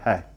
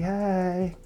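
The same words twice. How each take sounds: First: The greeting sounds flat and uninterested. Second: The greeting sounds warm and flirtatious. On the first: She has no interest in him. "nah, she has zero interest in him" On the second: She is attracted to him. "she think he fine, she like, hi. All right, she's turned on"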